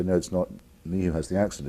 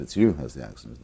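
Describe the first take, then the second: First: "me" leaned on, falling at the end; stress on me. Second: "you" lowered and weighted, with a rise at the end; stress on you. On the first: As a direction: push the word "me" in "not me who has the accent". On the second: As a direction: put the weight on "you" in "it's you who has the accent". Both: Retold or imitated. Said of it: "And I say".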